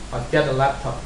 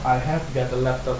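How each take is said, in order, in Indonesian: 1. 'Have' disingkat, diucapkan cepat. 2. 'Have' diucapkan penuh, pelan. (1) "biasanya mereka ngomongnya cepat. I have bisa disingkat jadi I've" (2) "orang aslinya tidak ngomong seperti ini ya"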